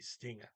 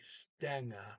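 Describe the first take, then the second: First: The first vowel sounds like i. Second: The first vowel sounds like e. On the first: "go to an I for that" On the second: "trying to say Stenga, which is also just as incorrect"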